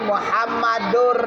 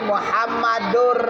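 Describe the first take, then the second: First: The n sound merges into an r sound. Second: The n sound merges into an r sound.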